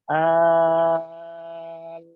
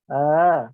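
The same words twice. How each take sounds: First: The long vowel is held evenly without a push. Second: The long vowel is pushed out with an abrupt jolt. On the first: The speaker calls it right. "kita panjangkan enam harokat tapi datar, tidak dihentakkan" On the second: The speaker calls it wrong. "itu dihentakkan, tidak seperti itu"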